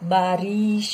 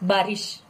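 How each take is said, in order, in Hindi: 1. i स्वर खींचकर लंबा बोलें। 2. i स्वर छोटा ही बोलें। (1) "बारिश नहीं" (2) "this is the correct pronunciation"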